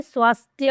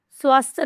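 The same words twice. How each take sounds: First: स्वास्थ्य said clearly as "swaast-hya" with the y at the end; correct pronunciation. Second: स्वास्थ्य said as "swaast-h", dropping the y sound at the end; wrong pronunciation. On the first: Teacher gives students the correct form, swaast-hya with the y. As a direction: sound the final य in स्वास्थ्य. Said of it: "स्वास्थ्य होता है". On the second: Teacher shows students the common wrong way, swaast-h without the y. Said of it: "स्वास्थ्य नहीं होता है". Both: Shown as a demonstration.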